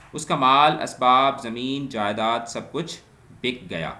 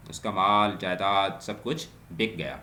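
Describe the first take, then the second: First: Reads the example out louder, with a rise on کچھ; loud example reading. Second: Said in the usual way. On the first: Shown as a demonstration. Teacher reading an example sentence to students, louder. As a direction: announce the example sentence to the class.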